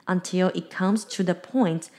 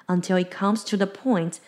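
The two takes are said the same way.

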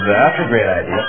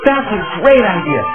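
First: Sarcastic tone, with the pitch going up. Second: Serious tone, with the pitch going down. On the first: "If you're sarcastic, you say" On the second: "If you're serious, you say"

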